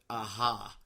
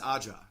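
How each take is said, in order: First: The middle consonant is an H sound. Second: The middle consonant is a J sound. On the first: "I always pronounce it aha" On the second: "you say it's Aja"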